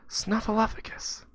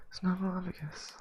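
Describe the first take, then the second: First: Put-on louder kid word. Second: Put-on mumbled kid word. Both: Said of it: "I didn't hear you".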